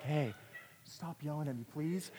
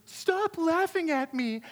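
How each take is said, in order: First: Soft, timid plea; quietly and politely ask them to stop; discreet polite request. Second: High, drawn-out indignant yell; slow, high-pitched cry of protest; yelling kid. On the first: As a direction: act out asking meekly through a cracked door. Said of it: "he's not cracking the door a little bit". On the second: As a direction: act out an embarrassed kid yelling. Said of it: "when he wants to yell at somebody". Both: Retold or imitated.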